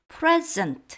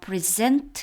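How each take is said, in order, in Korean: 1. 강세는 첫 번째 음절에 있습니다. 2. 강세는 두 번째 음절에 있습니다. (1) "강세가 이름절에 있으면 형용사죠" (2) "present 해서 동사이고요"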